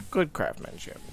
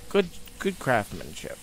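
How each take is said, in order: First: Good craftsmanship breathed out unvoiced; hushed aside; whispered. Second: Said in the usual way. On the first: Real, not acted.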